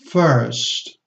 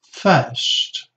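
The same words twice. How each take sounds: First: The R sound is pronounced after the vowel. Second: The R sound is silent after the vowel.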